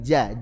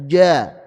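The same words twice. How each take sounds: First: The j is made in its normal middle position. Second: The j is pulled back toward the tongue root. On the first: The speaker calls it right. "huruf jim Arabi biasa begini" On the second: The speaker calls it wrong. "mundur sedikit ke pangkal lidah"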